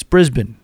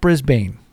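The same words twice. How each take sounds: First: Brisbane with a reduced second syllable, BRIZ-bun; corrected pronunciation. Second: Brisbane with a full BANE second syllable; wrong pronunciation. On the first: Host correcting listeners on the city, Brisbane as BRIZ-bun. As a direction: say Brisbane as BRIZ-b'n, swallowing the last vowel. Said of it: "It's Brisbane". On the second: Host showing listeners the wrong way, Brisbane as BRIZ-BAIN. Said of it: "it's not Brisbane". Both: Shown as a demonstration.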